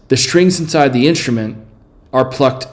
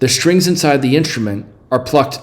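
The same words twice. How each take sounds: First: There is a long pause after 'instrument'. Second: There is a short pause after 'instrument'. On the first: "Is it a long or logical pause? Let me say it with C" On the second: "Is it a regular pause?"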